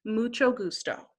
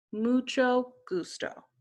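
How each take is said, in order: First: Said in the usual way. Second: "Mucho gusto" repeated more slowly, each syllable clear; slow model repeat; slower repeat. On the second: Shown as a demonstration. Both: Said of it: "you would say".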